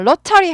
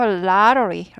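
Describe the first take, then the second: First: It is said with Korean-style syllables and vowels. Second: It is said with an English-style pronunciation. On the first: The speaker calls it wrong. "로터리 하지 않고" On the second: The speaker calls it right. "lottery 이렇게 돼요"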